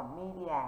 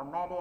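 First: "media" with the first syllable as "mee", like mee-dia; the right way: "media" begins with a long "mee" sound; correct pronunciation. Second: "media" with the first syllable as "meh", like meh-dia; the common mistake: "media" started with "meh" instead of "mee"; wrong pronunciation. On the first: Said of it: "chúng ta đọc là media". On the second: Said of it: "nhiều bạn mà đọc là media là sai". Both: Shown as a demonstration.

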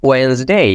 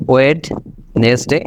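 First: ওয়েন্সডে in two syllables, 'wens-day'; correct Wednesday pronunciation. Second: ওয়েডনেসডে with the D sounded, 'wed-nes-day'; wrong Wednesday pronunciation. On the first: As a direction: say ওয়েন্সডে with silent D, rising at the end. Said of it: "এইভাবে বিষয়টা করবেন". (সঠিক উচ্চারণে দুই ভাগে 'ওয়েন্স-ডে') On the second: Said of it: "এটাও right না". (ভুল উচ্চারণে, ভেঙে ধীরে 'ওয়েড-নেস-ডে') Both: Shown as a demonstration.

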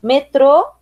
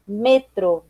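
First: Said in the usual way. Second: "metro" falling, stressed on ME; Spanish stress. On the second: Shown as a demonstration. Teacher reading the list, "metro" with Spanish stress on ME. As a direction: say "metro" as ME-tro. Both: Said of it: "diferença entre as palavras heterotônicas".

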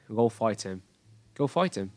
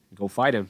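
First: British "Go fight him" with crisp released T; British accent. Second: "Go fight him" run together as "go figh-dim"; linked T as D. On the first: Teacher contrasts accents for students, British pronunciation. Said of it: "giọng British English nó sẽ khác ấy". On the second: Teacher models American linking, T becomes D. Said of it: "nó biến thành âm D". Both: Shown as a demonstration.

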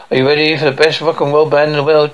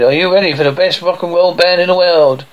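First: Quick rock-show announcer; male announcer. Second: Insistent announcer. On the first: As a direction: introduce the band in a fast announcer's read. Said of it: "Male announcer". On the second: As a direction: repeat it to work up the crowd. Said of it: "I said". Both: A narrator's reading.

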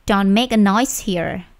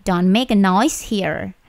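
The two takes are said the same way.

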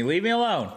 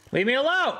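First: Said in the usual way. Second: A pitched-up frantic plea; desperate yell. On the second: Real, not acted. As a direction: yell it at the mob. Mob keeps attacking.

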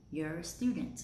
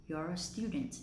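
First: "You're" weakened to "yer"; reduced you're. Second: "You're" with a rounded "yor" vowel; full you're. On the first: Teacher rereading the second way, "You're" as "yer". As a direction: say "You're" with a schwa vowel. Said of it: "Cách thứ hai mình đọc thành âm ear". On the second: Teacher rereading the first way, "You're" as "yor". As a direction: say "You're" just like possessive your. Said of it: "Cách đầu tiên mình đọc là your". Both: Shown as a demonstration.

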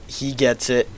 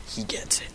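First: Said in the usual way. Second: Soft mock-secret whisper. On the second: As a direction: whisper the line softly. Repeat whispered after plain take.

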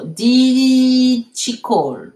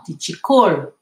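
First: First word of "Di Chicol" stretched very long and loud; drawn-out model. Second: "Di Chicol" said briskly, unstretched, weight on the last syllable; corrected model. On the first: Teacher modelling the corrected question for students, drawn out. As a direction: linger on "Di" in "Di Chicol", then finish. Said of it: "non, Di Chicol". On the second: Teacher correcting the verb without E D, firm model. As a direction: land on "col" in "Di Chicol", then fall. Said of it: "Sans le E D". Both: Shown as a demonstration.

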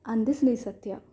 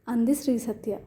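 No difference in how they are said.

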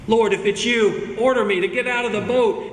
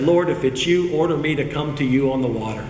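First: Higher, urgent repeat of a quote; emphatic plea. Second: Said in the usual way. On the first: Acted. Peter asking the Lord to order him out, emphatic plea. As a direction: press the request with raised pitch.

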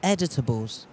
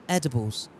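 First: Editables said with an extra t syllable, ed-i-ta-bles; mispronounced Editables. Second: Edibles said cleanly in three syllables, ed-i-bles; correct Edibles. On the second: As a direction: settle on the right word Edibles. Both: Shown as a demonstration. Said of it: "'cause editables is something that you edit".

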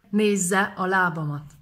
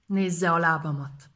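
The two takes are said the same way.

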